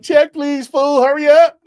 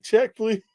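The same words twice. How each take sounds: First: High, loud call for the bill; urgent mock demand. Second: A restrained mock call for the bill; understated check request. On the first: Diner desperate to escape a bad conversation, loud mock urgency. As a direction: call out to hurry the waiter, hamming it up. Acts out urgently wanting to leave. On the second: Diner asking to leave after a rude reply, understated. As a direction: ask for the check without raising your voice. Acts out calmly walking out of a bad talk.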